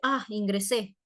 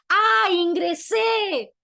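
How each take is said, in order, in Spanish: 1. Suena plano, indiferente o incluso molesto. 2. Suena animado, alegre y muy contento. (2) "el segundo está muy alegre de haber ingresado"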